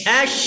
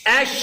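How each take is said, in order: Both takes have the same delivery.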